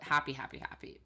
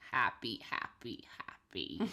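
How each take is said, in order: First: It is said in the speaker's normal voice. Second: It is said in a put-on goblin-like voice. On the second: "he says it like a goblin because he talks like a goblin. So I think the line reading would be, like"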